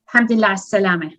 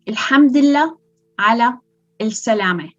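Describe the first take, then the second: First: It is said fast with several letters not heard. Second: It is said slowly with every letter clearly pronounced.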